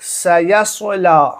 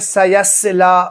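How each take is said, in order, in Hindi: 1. दूसरा स भारी और गहरा है। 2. दूसरा स हल्का और पतला है। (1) "ये है सही तरीका" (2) "लोग क्या पढ़ते हैं"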